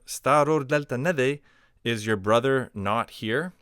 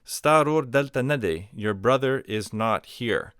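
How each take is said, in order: First: "Staror delta nade" pitched up as a question; question intonation. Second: "Staror delta nade" stated, weight on "Staror"; statement intonation. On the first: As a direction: ask "Staror delta nade" with a high querying tune. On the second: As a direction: assert "Staror delta nade" and come down at the end. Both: Shown as a demonstration. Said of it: "just an intonation change".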